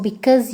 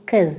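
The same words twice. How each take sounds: First: Said in the usual way. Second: "'Cause" as one syllable, no be-; shortened form. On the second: Shown as a demonstration. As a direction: drop the first syllable, just "'Cause". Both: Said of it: "you can say".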